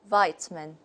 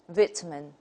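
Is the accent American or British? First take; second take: American; British. First: It is said in an American accent. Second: It is said in a British accent. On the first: "according to the American model" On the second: "the British model"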